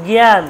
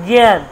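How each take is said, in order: The two takes are said the same way.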